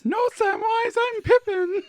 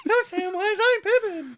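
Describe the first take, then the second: First: High squeaky hobbit voice, giggling; hammed-up high Pippin squeak; Pippin impression. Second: Very high laughing hobbit squeak, louder; mock Pippin voice, loud and giggly; Pippin impression. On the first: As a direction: pipe up like a silly hobbit. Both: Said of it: "So now you've gotta do pepper".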